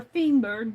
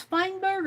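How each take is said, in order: First: "Feinberg" said with a long E, like "fee"; alternative pronunciation. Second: "Feinberg" said with a long I, like "fine"; first pronunciation option. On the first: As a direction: say "Feinberg" as FEEN-berg. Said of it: "or Feinberg". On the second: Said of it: "I don't know if it's". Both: Shown as a demonstration.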